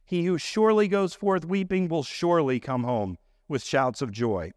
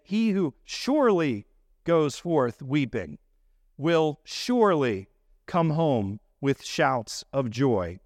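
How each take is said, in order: First: Said in the usual way. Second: Slow, leaning on each "surely"; stress on surely. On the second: Shown as a demonstration. Preacher showing the congregation the emphasis, slow and stressed. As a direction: drag out "surely" both times, slow and deliberate. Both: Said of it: "We would say".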